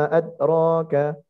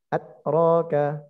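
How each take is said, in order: No difference in how they are said.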